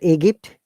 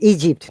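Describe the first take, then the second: First: The g is hard, like in go. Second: The g is soft, like a j sound. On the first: The speaker calls it wrong. "not Egypt" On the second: The speaker calls it right. "soft J"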